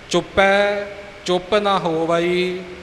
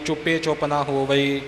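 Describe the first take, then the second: First: The first word ends in an 'ai' vowel. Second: The first word ends in a plain 'e' vowel. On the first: The speaker calls it right. "ਇਸੇ ਤਰ੍ਹਾਂ" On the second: The speaker calls it wrong. "ਆਮ ਤੌਰ 'ਤੇ ਸੁਣਿਆ ਜਾਂਦਾ"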